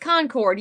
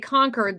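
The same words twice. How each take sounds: First: It is pronounced the local Southern way. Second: It is pronounced the Northern way. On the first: This is how the town's own people say it. The speaker calls it right. "No, it's Concord" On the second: This is how Northerners say their town's name. The speaker calls it wrong. "Yankees say Concord"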